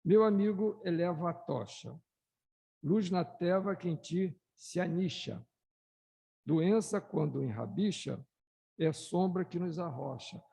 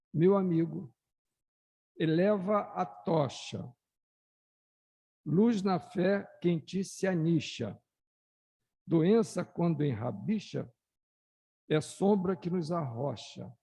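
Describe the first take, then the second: First: Plainer second reading of the verses; calmer poem reread. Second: Declaimed poem. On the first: Shown as a demonstration. Speaker rereads the poem for the audience, calmer and plainer. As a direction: read it again, less grandly. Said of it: "Vou, vou reler". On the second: Acted. Speaker reads the spirit poem aloud to the audience, declaiming loudly. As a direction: proclaim each verse to the hall.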